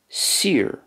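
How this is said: The vowel sounds like the 'ee' in 'seer'. "But in Connacht"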